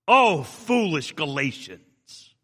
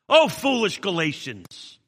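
First: It sounds disappointed. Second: It sounds angry.

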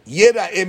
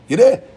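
First: The word is read with the vowels 'yera'eh'. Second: The word is read with the vowels 'yir'eh'. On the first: A person will be seen. "yireh means you'll be seen" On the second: A person will see. "Guy goes and sees the Shechina"

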